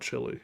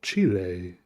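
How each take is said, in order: First: Chile is said with a plain English pronunciation. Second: Chile is said with a Spanish-style pronunciation. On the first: This is how people locally call it. "we just call it Chile here" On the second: It may come across as trying too hard. "Is it weird to try to pronounce Chile like that? ... the right way to say it"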